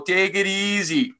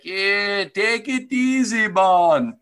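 First: Slow, high bad Jamaican lilt; mock Jamaican accent. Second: High, slow mock Jamaican lilt; a cheesy tourist-island Jamaican voice; terrible Jamaican accent. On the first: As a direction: drawl it like a cheesy island greeting. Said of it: "I understand that's a terrible accent". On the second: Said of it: "Terrible accent".

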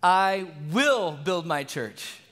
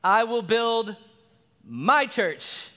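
First: Slow, with the weight on will; I will build my church, will stressed and slow. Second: A gentle reminder that leans on my; stress on MY. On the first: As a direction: press the word will firmly. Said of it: "God emphasizes a different word". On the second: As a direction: pause before my, my stressed. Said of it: "there's that just gentle reminder". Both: Shown as a demonstration.

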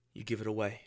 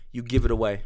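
First: Much softer, almost under the breath; soft aside. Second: Said in the usual way. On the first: Shown as a demonstration. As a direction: drop the voice right down on the first take. Repeats line, first said softly.

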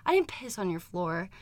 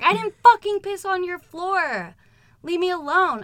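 First: Said in the usual way. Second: High, loud, hammed-up yelling back; exaggerated retort. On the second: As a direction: shout it back in exaggerated indignation. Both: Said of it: "I might be exaggerating a little bit".

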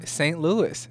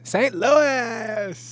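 First: Said in the usual way. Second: High, loud, exaggerated St. Louis drawl; St. Louis dialect. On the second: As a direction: belt out the city name in hammed-up St. Louis dialect. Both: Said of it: "they had a dialect there in Saint Louis".

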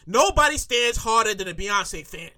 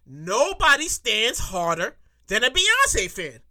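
First: Said in the usual way. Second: Slow, deliberate delivery with pauses; drawn-out, weighty restatement; emphatic repeat. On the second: Shown as a demonstration. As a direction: spell out each word for emphasis. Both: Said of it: "Maybe I'll say that again".

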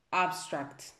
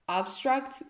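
First: "Abstract" low, with a sh-like s before the t; hesitant English pronunciation. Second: "Abstract" higher and rising, with a clean s; retry "Abstract" with a crisp s, lifting at the end; careful English pronunciation. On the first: Podcaster attempting the English series title, hesitant pronunciation. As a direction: say "Abstract" low and unsure, as "abshtract". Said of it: "pânico que é dizer cenas em inglês". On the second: Podcaster retrying the English series title, careful pronunciation. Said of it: "quer pronunciar bem". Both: Real, not acted.

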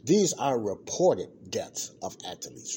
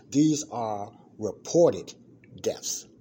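First: Said in the usual way. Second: "These are reported deaths" slow and emphatic, each word louder; stress on reported. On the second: Shown as a demonstration. Host stressing to listeners that these are only reported deaths, slow emphatic delivery. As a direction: lean hard on "reported", slowly and deliberately. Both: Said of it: "I put emphasis on this".

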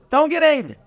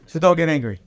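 First: High, amused repeat; mock disbelief, laughing. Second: Said in the usual way. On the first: Shown as a demonstration. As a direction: laugh through the words.

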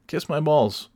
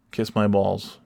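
First: Pitched higher, sing-song taunt; higher mocking kiss-off. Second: Said in the usual way. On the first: Taunting a bumper-sticker driver in a higher voice. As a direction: toss it up high like a taunt.

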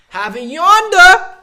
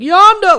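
First: Very high, loud yonder; Bill Burr high inflection. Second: Yonder said very high and loud; Bill Burr high inflection. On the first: Retold or imitated. Bill Burr impression, very high loud yonder. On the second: Shown as a demonstration. Showing how Bill Burr talks, very high loud yonder. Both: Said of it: "does a high inflection at the end".

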